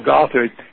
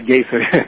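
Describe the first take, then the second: First: The first syllable sounds like 'goth'. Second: The first syllable sounds like 'gay'. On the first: The speaker calls it right. "I'll say it correctly this time" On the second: The speaker calls it wrong. "I used to say Gaithard"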